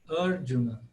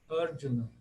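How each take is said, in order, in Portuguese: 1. A tônica está na primeira sílaba. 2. A tônica está na primeira sílaba.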